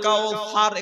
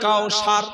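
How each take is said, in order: First: The consonant is a soft th sound. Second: The consonant is a plain s sound. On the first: The speaker calls it right. "এখানে আছে সা" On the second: The speaker calls it wrong. "সিন চালিয়ে দিয়েছে সারা জীবন"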